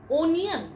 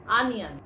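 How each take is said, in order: First: Onion. said as OH-nee-un; Onion. said wrongly, as OH-nee-un; common mispronunciation. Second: Onion. said as UN-yun; Onion. said rightly, as UN-yun; correct pronunciation. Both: Shown as a demonstration.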